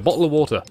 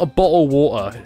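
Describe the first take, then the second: First: The t in bottle is said very quickly. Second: The t in bottle is not said quickly. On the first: The speaker calls it right. "the teaser said really quickly" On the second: The speaker calls it wrong. "It's not a bottle of water"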